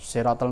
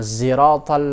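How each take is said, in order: First: The first consonant is a heavy s sound. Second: The first consonant is blended toward a z sound. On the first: "itu huruf shad" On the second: "hamzah itu menjadi zai. Namanya ismam itu"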